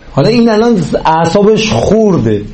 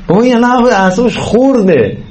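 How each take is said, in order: First: Said in the usual way. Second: این الان اعصابش خورده raised and insistent, pitch lifted; emphatic repeat. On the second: Shown as a demonstration. Teacher urging parents to see it, emphatic. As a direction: press the point home, higher and urgent.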